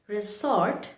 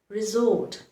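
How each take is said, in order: First: The middle consonant is a hissing S sound. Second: The middle consonant is a buzzing Z sound. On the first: The speaker calls it wrong. "this is the incorrect way to pronounce it" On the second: The speaker calls it right. "this should be pronounced with the sound Z"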